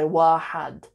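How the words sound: The second syllable has the vowel a. This is the colloquial spoken form. "I always hear people in Aramiya say wahad"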